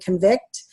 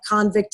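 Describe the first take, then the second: First: The stress is on the second syllable. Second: The stress is on the first syllable.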